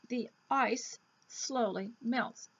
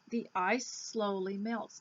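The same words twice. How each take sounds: First: The end and start sounds are said separately. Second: The end and start sounds are blended together.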